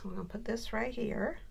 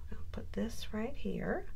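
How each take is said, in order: First: Said in the usual way. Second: Breathy whisper while placing a piece; soft unvoiced aside over the crafting table. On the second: Real, not acted. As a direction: whisper it to yourself as you work.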